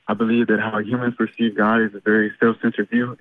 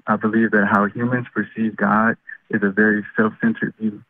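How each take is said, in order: First: It is said fast. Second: It is said slowly.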